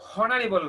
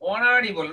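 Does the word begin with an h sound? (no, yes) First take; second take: yes; no. First: The word starts with an h sound. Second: The word starts with a vowel sound. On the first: The speaker calls it wrong. "Not এখানে আমাদের হনারেবল না" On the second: The speaker calls it right. "হচ্ছে অনারেবল"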